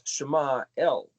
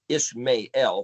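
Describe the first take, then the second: First: The name is said in its Hebrew form. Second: The name is said in its English form. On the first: The speaker calls it right. "Shema El is actually what the word is" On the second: The speaker calls it wrong. "That's the English stupid way of pronouncing it"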